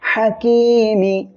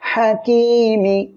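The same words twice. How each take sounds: The two takes are said the same way.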